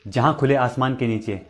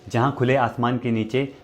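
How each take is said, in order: Both takes have the same delivery.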